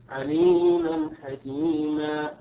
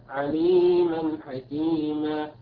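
Both takes have the same delivery.

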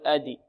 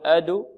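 First: The d bounces into an i vowel. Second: The d bounces into a u vowel. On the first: "ولا نقول أدي" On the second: "لا نقول أدو"

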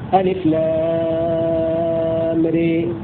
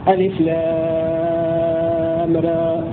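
First: The final vowel leans strongly toward ee. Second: The final vowel is between a and e. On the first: "هذه إمالة" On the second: "هذا تقليل"

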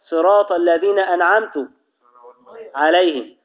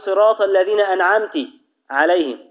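First: The final t of an'amt takes a u vowel. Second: The final t of an'amt takes an i vowel.

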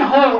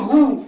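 First: The vowel is said without rounded lips. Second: The vowel is said with rounded lips. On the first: The speaker calls it wrong. "مش عايزين" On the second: The speaker calls it right. "عايزين ... لازم تضمي"

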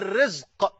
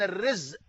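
First: The word ends with a deep q sound. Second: The word ends with a glottal stop. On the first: The word means provision or livelihood. "بالقاف هو ما عرفته" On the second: The word means a calamity. "بالهمزة المصيبة"

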